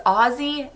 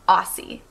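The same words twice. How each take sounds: First: "Aussie" with a buzzing z; correct z pronunciation. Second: "Aussie" slowly with an s sound; wrong s pronunciation. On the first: Vlogger correcting viewers, "Aussie" with a z. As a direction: say "Aussie" as OZ-zee. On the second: Vlogger warning of the mistake, "Aussie" with an s. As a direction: say "Aussie" as AW-see, drawn out. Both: Shown as a demonstration. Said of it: "not Aussie".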